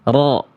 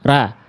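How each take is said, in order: First: The syllable sounds heavy, with a darkened vowel. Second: The syllable sounds thin, with a clear a vowel. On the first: "Sekarang angkat pangkal lidahnya" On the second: "Vokalnya masih A. Jelas, karena pangkal lidahnya belum saya naikin"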